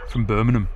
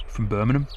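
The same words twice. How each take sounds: First: Put-on falling Birmingham accent, a bit lower; Brummy accent. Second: Put-on light Birmingham accent with a rising end; Brummy accent. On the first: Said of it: "What do you guys reckon to my Brummy". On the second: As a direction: repeat it as a playful Brummy. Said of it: "my Brummy accent there?".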